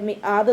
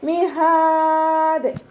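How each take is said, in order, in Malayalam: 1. നടുവിലെ വ്യഞ്ജനം ഹംസയാണ്. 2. നടുവിലെ വ്യഞ്ജനം ഹ ആണ്.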